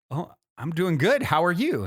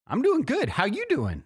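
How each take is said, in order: First: A quick, higher, louder startled hello back; surprised cheerful reply. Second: Much higher, lilting voice of a calmly confident stranger; homeless man's serene vibe. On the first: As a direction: caught off guard, brightly answering a friendly stranger. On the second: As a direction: float the greeting up high, unbothered and kind. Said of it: "that was the vibe". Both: Retold or imitated.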